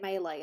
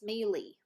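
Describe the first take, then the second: First: It is said the speaker's way, like 'may-lay'. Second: It is said the Canadian way, like 'mealy'.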